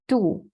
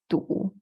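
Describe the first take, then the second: First: It is said in the fourth tone. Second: It is said in the third tone. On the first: It means belly. "the last one is belly" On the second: It means stuck. "the next one is stuck"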